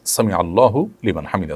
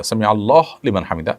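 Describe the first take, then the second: First: আল্লাহু with the final u voiced; correct pronunciation. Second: আল্লাহ cut to a closed h; incorrect stopped pronunciation. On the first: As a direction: run আল্লাহু into লিমান on a hu vowel. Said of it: "এটি হলো শব্দের সঠিক উচ্চারণ". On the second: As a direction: drop the final u of আল্লাহ before লিমান. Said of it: "এটা সঠিক উচ্চারণ নয়". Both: Shown as a demonstration.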